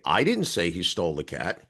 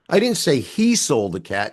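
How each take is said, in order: First: The stress falls on the word I. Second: The stress falls on the word he. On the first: Someone else said it. "you did" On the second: A different person took the cat. "She did"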